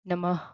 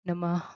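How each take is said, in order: First: The final h sound is reduced and light. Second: The final h sound is reduced and light.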